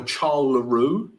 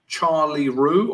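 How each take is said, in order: First: "Charles LaRue" as French, silent S; French-style name. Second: Said in the usual way. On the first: Shown as a demonstration. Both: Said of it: "French names".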